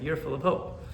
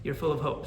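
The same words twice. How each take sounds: First: "you're" lifted and punched, rest of "full of hope" light; stress on you're. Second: "full" carries the accent, falling tune, "You're" unstressed; stress on full. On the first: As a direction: push the word "you're" up with a rising tune. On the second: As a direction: lean on "full" and let it drop. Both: Shown as a demonstration. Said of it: "Not you're full of hope".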